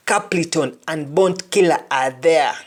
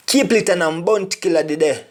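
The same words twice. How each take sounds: First: Said in the usual way. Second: Patois phrase before its English gloss; Jamaican Patois. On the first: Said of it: "[name] and [name] the day". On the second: Shown as a demonstration. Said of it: "[name] and [name] are there".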